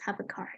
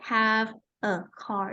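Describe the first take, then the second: First: The words are linked, with a weak form. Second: The words are said separately, with full forms. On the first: The speaker calls it right. "they link the sound together... it's used in the weak form" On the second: The speaker calls it wrong. "is not have a car"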